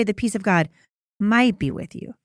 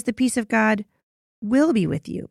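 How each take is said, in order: First: "might" leaned on, falling; stress on might. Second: "will" hit firmly, falling to a close; stress on will. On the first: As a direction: set up "might" as the wrong word. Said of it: "Notice he doesn't say". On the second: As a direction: land hard on "will". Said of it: "He says". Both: Shown as a demonstration.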